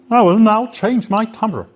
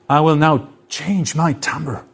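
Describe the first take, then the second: First: The voice has a deliberately altered timbre. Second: The voice has its usual natural timbre.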